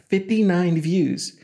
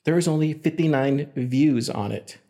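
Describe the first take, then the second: First: "Fifty-nine views" slow, each word punched with a falling end; emphatic repeat. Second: Said in the usual way. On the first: Real, not acted.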